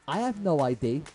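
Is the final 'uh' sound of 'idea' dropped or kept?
dropped. Idea ends without the final uh sound. The speaker calls it wrong. "they say"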